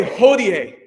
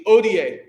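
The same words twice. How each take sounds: First: Hodie with the H sounded; hodie, breathy h at the start. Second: Odie, silent h, starts on the vowel oh; Odie, drop the h entirely. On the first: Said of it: "Everyone say hodie". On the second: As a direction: Odie said as oh-dee-ay. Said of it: "Don't pronounce the H". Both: Shown as a demonstration.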